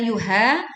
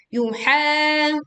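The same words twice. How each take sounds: First: "yuha" with an ordinary h in speaking voice; faulty spoken "yuha", lacking the mid-throat h; wrong ha. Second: "Yuha" chanted higher with a long throaty h; mid-throat ha. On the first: Teacher showing what to avoid, wrongly plain ha. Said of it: "bukan yuha". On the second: Teacher showing the correct ha, mid-throat recitation. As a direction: hold "Yuha" from the middle of the throat. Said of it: "makhrajnya di tengah tenggorokan". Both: Shown as a demonstration.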